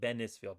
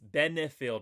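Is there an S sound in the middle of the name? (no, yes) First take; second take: yes; no. First: The name is said with an added S sound. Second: The name is said without an S sound. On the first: The speaker calls it wrong. "throw S's into a lot of people's names" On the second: The speaker calls it right. "It's Benefield"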